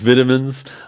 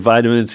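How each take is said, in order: First: It is said with a British accent. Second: It is said with an American accent.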